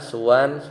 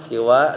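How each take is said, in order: First: The first vowel after s is u. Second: The first vowel after s is i. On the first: "dengan didomahkan" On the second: "dibaca siwa dengan kasroh sinnya"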